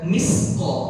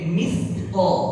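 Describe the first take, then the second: First: The middle consonant is a plain s sound. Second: The middle consonant is a th sound. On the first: The speaker calls it wrong. "jangan dibaca misqa" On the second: The speaker calls it right. "Ujung lidah kita nempel di seri tha thithu"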